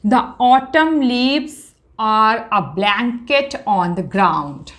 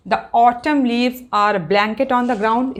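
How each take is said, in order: First: Drawn out, first words raised; slow reading aloud. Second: Steady classroom reread; slow reading aloud. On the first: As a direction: present the line slowly. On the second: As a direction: read the whole line once more. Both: Shown as a demonstration. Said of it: "अब देखिए".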